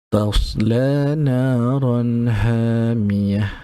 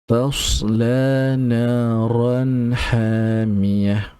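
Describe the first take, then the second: The two takes are said the same way.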